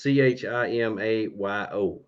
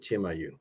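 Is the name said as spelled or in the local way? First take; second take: as spelled; local way. First: The name is said as it is spelled. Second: The name is said the local way. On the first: "It's Chimayo" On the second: "they pronounce it Chimayu"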